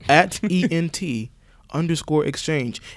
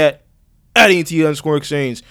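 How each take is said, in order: First: The words are spoken slowly. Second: The words are spoken quickly. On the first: "Let me slow it down for the people" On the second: "I said that really fast"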